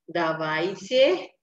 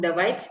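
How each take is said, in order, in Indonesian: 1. Kata itu diucapkan pelan dan hati-hati. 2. Kata itu diucapkan cepat dan alami. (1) "Tapi kalau kita ngomongnya pelan" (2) "Cuman kalau orang Rusia langsung ngomong"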